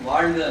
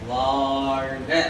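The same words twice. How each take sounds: First: The first vowel has its normal length. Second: The first vowel is stretched out extra long. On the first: "வாழ்க அல்ல" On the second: "அந்த வாவை கொஞ்சம் நீட்டணும்"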